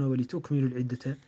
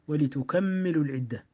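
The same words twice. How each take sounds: First: The m is single and the k has no vowel. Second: The m is doubled and the k has a vowel. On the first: "والباقون غير الشعبة يقرؤون" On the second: "يقرأها شعبة بالتثقيل، فيقرأ ويلزم من ذلك فتح الكاف"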